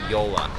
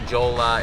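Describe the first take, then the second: First: It begins with a Y sound. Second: It begins with a J sound and an O vowel. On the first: The speaker calls it right. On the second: The speaker calls it wrong.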